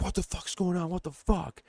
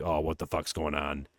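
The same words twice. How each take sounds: First: High, softer exasperated outburst; mock pissed-off. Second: Low, soft imitated wondering; hushed, low-pitched reaction as a viewer; uneasy aside. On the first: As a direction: imitate a fed-up man, pitched way up. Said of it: "he's pissed". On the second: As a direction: say it low and under your voice.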